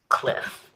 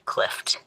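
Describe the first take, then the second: First: The word ends plainly in an F sound. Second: The word ends with an added T sound. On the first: The speaker calls it right. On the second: The speaker calls it wrong.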